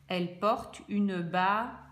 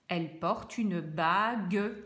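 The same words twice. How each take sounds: First: The g in the last word is soft. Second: The g in the last word is hard. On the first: The speaker calls it wrong. "ça ne fonctionne pas" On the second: The speaker calls it right. "Là, ça fonctionne"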